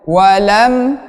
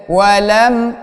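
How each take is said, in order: No difference in how they are said.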